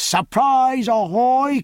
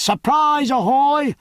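First: Anxious hail. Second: High, ringing sea hail; shouted hail. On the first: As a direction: call the ship, growing anxious. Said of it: "full pitch of his powerful voice had an edge of anxiety". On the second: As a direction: hail the ship from the water. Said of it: "he drew breath and shouted". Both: A narrator's reading.

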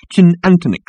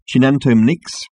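First: "chinantonix" opening on ch, with no m before "nix"; alien variant. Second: "chinantomnix" opening on ch, with an m before "nix"; alien variant. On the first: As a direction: pronounce "chinantonix" as one foreign drink name. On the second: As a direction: pronounce "chinantomnix" as one foreign drink name. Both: Shown as a demonstration. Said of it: "variations on the same phonetic".

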